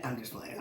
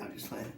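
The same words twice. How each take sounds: First: Said in the usual way. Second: Whispered, much softer; breathy whispered aside to the listener. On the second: Real, not acted. Repeats the teasing aside to the audience in a whisper.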